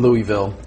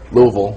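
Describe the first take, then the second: First: Louisville is pronounced the way outsiders say it. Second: Louisville is pronounced the way locals say it.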